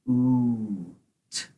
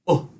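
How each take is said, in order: First: The vowel is a long oo sound. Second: The vowel is a short uh sound. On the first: The speaker calls it right. "So it's a ghost there as well" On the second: The speaker calls it wrong. "let's try the gorilla just to be sure"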